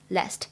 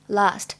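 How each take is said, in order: First: The vowel is a short, flat front 'a' sound. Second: The vowel is a long back 'ah' sound. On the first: "美式呢读作梅花音last last" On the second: "它的英式发音读的是长元音的啊，读作last last"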